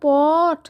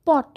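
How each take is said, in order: First: পট with the vowel stretched long, "pawwwt"; wrong drawn-out vowel. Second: পট said short and quick; correct short vowel. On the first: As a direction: drag out the middle of পট before the t. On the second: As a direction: cut the vowel in পট short, straight to the t. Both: Shown as a demonstration. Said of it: "এমনি করে কিন্তু উচ্চারণ করি না".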